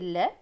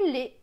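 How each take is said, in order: First: The vowel is open, like è. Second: The vowel is closed, like é. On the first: This follows the reading method's rule. "soit c'est E" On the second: This is the speaker's regional way. "soit c'est E"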